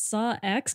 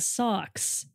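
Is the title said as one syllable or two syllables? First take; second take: two syllables; one syllable. First: It is said as two syllables, saw and ex. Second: It is said as one syllable, like socks. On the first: This is how the hosts have been saying it. "you guys are have been pronouncing it Saw X" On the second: This is how the guest has been saying it. "I've been saying socks"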